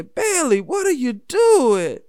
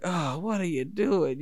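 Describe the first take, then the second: First: Much higher and louder, slow outraged yell; exasperated coach yell. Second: A hint of a frustrated coach, slow; drawn-out, mildly exasperated coach voice; lightly voiced coach, let down by his player. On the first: Retold or imitated. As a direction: bellow the kid's name across the field in disbelief. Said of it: "I remember hearing his voice say". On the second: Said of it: "the coach looking so frustrated".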